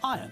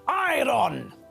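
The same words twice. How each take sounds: First: No R sound is pronounced. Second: The R sound is clearly pronounced. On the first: The speaker calls it right. "when we pronounce the word correctly, then we pronounce it as iron" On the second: The speaker calls it wrong. "the mistake of pronouncing the word iron as iron. This is wrong"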